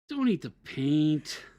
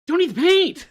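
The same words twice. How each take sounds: First: It sounds disappointed. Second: It sounds excited.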